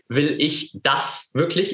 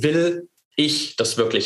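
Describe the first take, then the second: First: The stress is on the word das. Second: The stress is on the word will.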